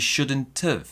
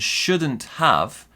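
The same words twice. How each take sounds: First: The word have is reduced to an of sound. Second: The word have is said in full.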